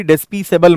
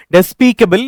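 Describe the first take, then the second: First: डिस्पीसेबल with C wrongly as an S sound; soft S mispronunciation. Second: डिस्पीकेबल with C as a hard K; hard K sound. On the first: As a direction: put an S where the K belongs in डिस्पीसेबल. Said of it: "यहाँ पर कभी डिस्पीसेबल मत पढ़ना". (डिस्पीसेबल में 'क' की जगह 'स' बोलें) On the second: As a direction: say the C in डिस्पीकेबल like K, not S. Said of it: "तो इसको क ही पढ़ते हैं". (डिस्पीकेबल में सी को 'क' बोलें) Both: Shown as a demonstration.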